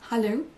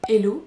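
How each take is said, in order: First: The word begins with an audible H sound. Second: The word begins directly with a vowel sound. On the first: The speaker calls it right. "au lieu de dire hello" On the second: The speaker calls it wrong. "sans prononcer le H"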